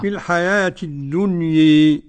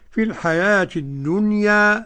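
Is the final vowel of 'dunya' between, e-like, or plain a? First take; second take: e-like; plain a. First: The final vowel leans strongly toward e. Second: The final vowel is a fully open a. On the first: "هذه الإمالة" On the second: "الفتح هكذا"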